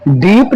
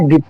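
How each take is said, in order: First: "deep" with a drawn-out ee; wrong long-vowel deep. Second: "dip" with a short i; correct short-vowel dip. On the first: Teacher showing students how not to read dip, long ee. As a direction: stretch the i in dip into ee. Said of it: "नहीं पढ़ना है". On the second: Teacher giving students the correct reading, short i in dip. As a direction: keep the i in dip short, voice dropping. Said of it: "पढ़ना है". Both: Shown as a demonstration.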